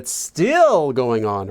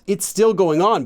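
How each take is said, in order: First: The word 'still' gets strong emphasis. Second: It is said evenly with no extra emphasis. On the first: It stresses that it continues longer than expected. "You want that emphasis" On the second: It simply states that it continues. "not just"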